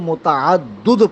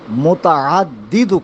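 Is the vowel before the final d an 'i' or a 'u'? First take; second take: u; i. First: The last syllable has a 'u' vowel. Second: The last syllable has an 'i' vowel. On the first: The speaker calls it wrong. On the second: The speaker calls it right.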